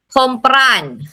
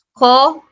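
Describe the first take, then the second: First: Said in the usual way. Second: "Ko-pran" split in two with a long pause between the syllables; "Ko-pran" as two separate beats. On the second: Shown as a demonstration. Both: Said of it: "Dalawang syllable lang".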